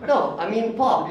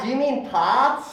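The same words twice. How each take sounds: First: "pop" said with a short rounded Indian "o", firm and a bit slow. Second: "pop" said with an open American "pah" vowel, drawn out, rising like a question. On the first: He corrects the Cali girl, holding his Indian "pop". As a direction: insist on "pop" with the tight round vowel, higher pitched. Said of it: "I was like". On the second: A Cali girl correcting his word, mock surprised and slow. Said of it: "She's like". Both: Retold or imitated.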